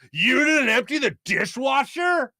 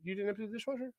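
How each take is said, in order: First: It is said in a harsh, accusing tone. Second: It is said in a light, casual tone. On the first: The remark is retold as a complaint. "giving the the worst inflection possible to how you said what you said" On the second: The remark was a casual question. "And all you said is you came in"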